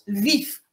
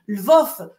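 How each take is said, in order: First: The last syllable has an i vowel. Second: The last syllable has an o vowel. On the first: The speaker takes the Ukrainian nationalist view. "ils prononcent Lviv. Vous voyez, un i au lieu d'un o" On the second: The city is seen as part of Soviet Ukraine. "on dit Lvov lorsqu'on considère que, que c'est une ville euh, qui faisait partie de l'Ukraine soviétique"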